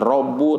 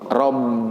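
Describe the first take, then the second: First: The word ends with a u vowel. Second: The word ends with an i vowel. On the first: The speaker calls it wrong. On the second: The speaker calls it right. "tapi robbi"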